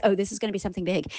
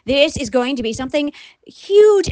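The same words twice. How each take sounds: First: Quick, lower, softer realization; quick aside. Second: Measured emphasis building to a big HUGE; emphatic build. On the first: Host first realizing what is coming, quick low aside. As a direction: toss it off fast and low, as a dawning thought. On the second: Host realizing how big it is, stress on "huge". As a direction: spell it out, leaning hard on "huge". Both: Retold or imitated.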